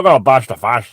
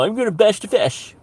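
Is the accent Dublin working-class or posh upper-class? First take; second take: Dublin; posh. First: It is said in a working-class Dublin accent. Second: It is said in a posh upper-class accent. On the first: "in a Dublin accent" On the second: "I always hear it with a posh upper accent"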